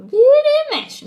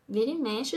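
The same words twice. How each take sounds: First: "Vira e mexe" much higher and louder; a sudden loud insistent cry; loud emphatic. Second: Said in the usual way. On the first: Shown as a demonstration. Repeats phrase, second louder.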